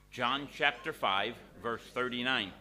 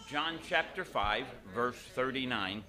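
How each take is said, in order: Both takes have the same delivery.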